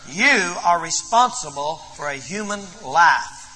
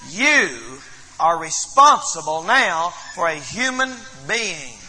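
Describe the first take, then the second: First: It is said plainly, without extra feeling. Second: It is said with strong, emphatic feeling.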